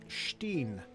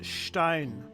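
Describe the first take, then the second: First: The vowel sounds like 'ee'. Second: The vowel sounds like 'eye'. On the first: The speaker calls it wrong. "I had a professor in collage who pronounced it Steen" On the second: The speaker calls it right. "if it's E I, it's Stein"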